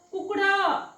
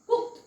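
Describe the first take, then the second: First: The ending is a full, separate d sound. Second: The ending is a sound between d and t. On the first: The speaker calls it wrong. "असं नाही वाचायचं" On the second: The speaker calls it right. "ड आणि ट चा मधला उच्चार"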